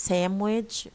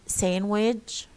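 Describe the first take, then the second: The two takes are said the same way.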